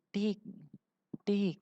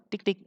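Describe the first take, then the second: First: The two taps are separated by a pause. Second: The two taps come quickly with no gap. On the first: Two separate single clicks. The speaker calls it wrong. "Bukan klik dua kali, ... Bukan seperti itu" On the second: A quick double click. The speaker calls it right. "Tapi klik dua kali"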